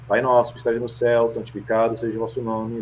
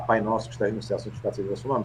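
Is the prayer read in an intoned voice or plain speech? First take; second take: intoned; plain speech. First: It is said in a projected, formally intoned voice. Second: It is said in a plain, everyday speaking voice. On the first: "eu faço a, a leitura impostada" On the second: "ao invés de falar"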